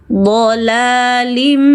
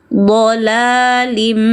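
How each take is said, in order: The two takes are said the same way.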